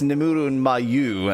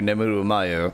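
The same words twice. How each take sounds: First: The vowel in Mayu is held long. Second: The vowel in Mayu is kept short. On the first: "like long oo in Mayu" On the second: "versus short oo"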